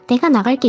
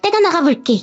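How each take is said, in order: First: It is said in a sweet, pretty voice. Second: It is said in a piercing, shrill voice.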